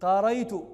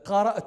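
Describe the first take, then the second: First: The glottal stop is replaced by a y sound. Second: The word has a glottal stop before the ending.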